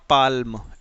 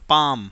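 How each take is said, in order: First: The word is said with an L sound. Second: The word is said without an L sound. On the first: The speaker calls it wrong. "Not पाल्म" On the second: The speaker calls it right. "This is पाम"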